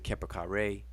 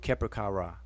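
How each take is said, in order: First: The last syllable ends with an "ay" sound. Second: The last syllable ends with an "ah" sound. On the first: "People pronounce it Keper kare" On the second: "more true to um, the ra pronunciation instead of ray"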